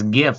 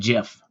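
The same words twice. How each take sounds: First: It begins with a hard G sound. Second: It begins with a soft G sound. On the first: The speaker calls it right. "it's a hard G" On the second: The speaker calls it wrong. "It's not GIF"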